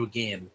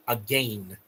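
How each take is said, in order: First: Said in the usual way. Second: "Again" said as "a-gayn", long ay; mock British "Again" with a long ay sound. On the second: Vlogger mocks the British pronunciation, saying "Again" as "a-gayn". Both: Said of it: "or whatever you say".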